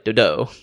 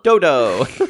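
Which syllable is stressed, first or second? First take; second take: second; first. First: The stress is on the second syllable. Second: The stress is on the first syllable.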